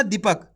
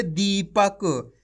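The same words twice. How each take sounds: First: दीपक said quickly with a short "di"; दीपक as the wrong reading, unstretched first syllable. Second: दीपक very slow, "dee" stretched out; teacher's slow demo of दीपक with lengthened दी; drawn-out long ī. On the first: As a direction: cut the first vowel of दीपक short, "dipak". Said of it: "ऐसे नहीं पढ़ना दीपक". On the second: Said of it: "इसी तरीके से पढ़ना आपको खींच के". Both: Shown as a demonstration.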